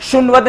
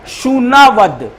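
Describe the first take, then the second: First: शुनवद clipped into two quick syllables, short u and no 'aa' in the middle; wrong pronunciation. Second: शूनावद said slowly as shoo-naa-vad, long ū and a full 'aa' in the middle; correct pronunciation. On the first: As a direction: show the wrong way: शुनवद squeezed to shun-vad. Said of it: "नहीं पढ़ना". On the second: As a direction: slowly model the right form शूनावद with every vowel drawn out. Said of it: "शुनवद नहीं पढ़ना". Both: Shown as a demonstration.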